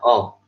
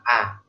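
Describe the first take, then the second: First: The vowel is rounded, sounding close to O. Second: The vowel is very open, with the jaw dropped. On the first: "Jadi kayaknya menjadi seperti uh, vokal O" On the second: "jangan dikebawahin A, kayak nganga"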